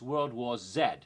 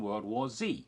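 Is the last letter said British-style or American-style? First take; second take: British; American. First: The final letter is said the British way. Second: The final letter is said the American way.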